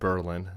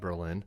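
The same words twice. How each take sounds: First: The stress is on the first syllable. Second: The stress is on the second syllable. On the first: This is how the locals in New Hampshire say it. The speaker calls it right. "they pronounce it Berlin" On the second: This is how the German city's name is said. The speaker calls it wrong. "not Berlin"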